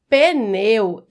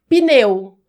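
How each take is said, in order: First: The P is followed by an 'e' vowel. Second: The P is followed by a short 'i' vowel. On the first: The speaker calls it wrong. "a pronúncia pneu está errada" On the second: The speaker calls it right. "Assim, como se tivesse um I"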